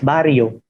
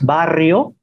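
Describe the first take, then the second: First: The r is a single tap. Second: The r is a long trill. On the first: This is the Filipino borrowed form. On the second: This is the original Spanish form.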